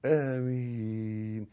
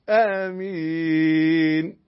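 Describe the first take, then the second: First: آمين with a two-beat first a; آمين, first a held just two counts; correct amen. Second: آمين stretched far too long and rising; wrong amen. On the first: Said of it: "آ حركتين". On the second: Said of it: "لا". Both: Shown as a demonstration.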